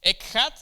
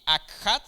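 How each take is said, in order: First: "Ekhad" opening on an E, accent on the final A; stress on final A. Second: "Akhad" opening on an A, accent on the final A; stress on final A. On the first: Teacher showing the first Hebrew word, "Ekhad" stressed on the A. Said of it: "con este acento en la A". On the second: Teacher showing the second Hebrew word, "Akhad" stressed on the A. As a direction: say "Akhad" with A first and the last A stressed. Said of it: "con acento en la A". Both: Shown as a demonstration.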